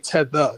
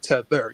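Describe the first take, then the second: First: The final R is softened or dropped. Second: The final R is pronounced hard and strong. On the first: The speaker calls it right. "You got to say tether" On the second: The speaker calls it wrong. "not tether"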